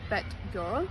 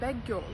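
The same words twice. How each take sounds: First: Bad ends with a d sound. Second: Bad ends with a g sound. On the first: "when we want to say" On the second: "we pronounce like"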